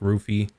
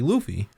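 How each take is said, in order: First: The name begins with an R sound. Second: The name begins with an L sound. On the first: "when it's pronounced, it sounds like Rufy" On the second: "it would be Luffy"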